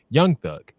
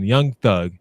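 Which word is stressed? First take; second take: Young; Thug. First: The word young carries strong emphasis. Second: The name is said with ordinary, even stress.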